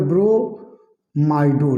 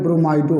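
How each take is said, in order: First: ब्रोमाइडो very slow, broken into long syllables; drawn-out term. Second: Said in the usual way. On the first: Shown as a demonstration. Teacher repeating the ligand name for students, slowly drawn out. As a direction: stretch ब्रोमाइडो part by part. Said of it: "क्या हो जाएगा?". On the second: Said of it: "तो यहाँ पर क्या हो जाएगा?".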